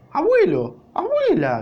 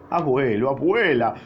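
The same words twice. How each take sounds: First: Much higher, louder joyful cry; shouting. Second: Mild, understated sob, near usual voice; sobbing. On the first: Lustig shouts to his grandparents, high and loud. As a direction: cry out to long-lost grandparents. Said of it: "gritaba Lustig". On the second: Lustig greets his grandparents, lightly tearful. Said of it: "sollo-, sollozaba". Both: A narrator's reading.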